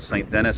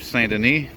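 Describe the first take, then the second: First: The name is pronounced the English way. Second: The name is pronounced the French way. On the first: "as the Anglos really call it" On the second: "Rue Saint Denis"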